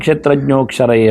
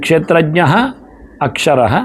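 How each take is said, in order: First: The two words are joined into one. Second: The two words are said separately. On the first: "ಒಟ್ಟು ಹೇಳುವಾಗ" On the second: "ಅಲ್ಲಿ ಕ್ಷೇತ್ರಜ್ಞ ಅಕ್ಷರ"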